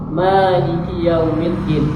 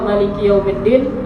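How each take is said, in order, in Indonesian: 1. Vokal setelah m dibaca panjang. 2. Vokal setelah m dibaca pendek. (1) "kita mazhab Syafi'i khususnya itu dua harokat" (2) "nah itu mazhab Maliki"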